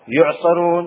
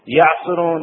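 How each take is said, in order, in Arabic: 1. الكلمة على صيغة المجهول. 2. الكلمة على صيغة المعلوم. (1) "مبني للمجهول يعني الفاعل غير معلوم" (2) "مبني للمعلوم يعني الفاعل معلوم"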